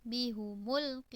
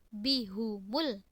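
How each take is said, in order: The two takes are said the same way.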